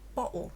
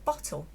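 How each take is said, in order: First: The t sound in the middle is dropped. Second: The t sound in the middle is pronounced.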